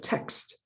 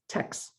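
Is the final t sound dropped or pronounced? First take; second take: pronounced; dropped. First: The final t sound is pronounced. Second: The final t sound is dropped. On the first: The speaker calls it right. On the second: The speaker calls it wrong.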